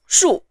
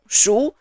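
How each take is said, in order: First: The syllable is said with the fourth tone. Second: The syllable is said with the second tone. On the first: "the fourth syllable is of the fourth tone" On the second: "the syllable with the second tone"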